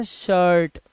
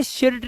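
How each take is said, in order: First: शर्ट drawn out with an "uh" vowel; correct shirt. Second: शर्ट misread as "shirit" with short i; mispronounced shirt. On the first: Teacher applying the i-r rule, शर्ट with "uh" vowel. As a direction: say शर्ट slowly, no "ih" before r. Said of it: "आई के बाद आर होता है तो". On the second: Teacher showing what shirt is not, शर्ट mispronounced with short i. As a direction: say शर्ट wrongly, sounding an "ih" before r. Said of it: "इसीलिए इसे शर्ट नहीं बोलते". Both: Shown as a demonstration.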